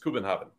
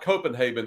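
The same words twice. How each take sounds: First: It is said with the local Danish pronunciation. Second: It is said with a typical American English pronunciation. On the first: The speaker calls it right. "the way that they pronounce Copenhagen" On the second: The speaker calls it wrong. "It's not Copenhagen"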